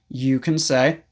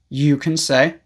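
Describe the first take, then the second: Both takes have the same delivery.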